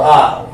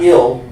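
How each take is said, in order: First: The vowel is a long eye sound. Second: The vowel is a short i sound. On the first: The speaker calls it right. "but I'll" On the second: The speaker calls it wrong. "not ill"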